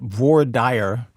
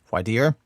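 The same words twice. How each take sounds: First: It is said the Texan regional way. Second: It is said the Northern regional way. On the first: This is how locals in the region say it. "In Texas, uh, by the way, everybody calls it voir dire" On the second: This is how an outsider from the north says it. "stick to her native way of saying it"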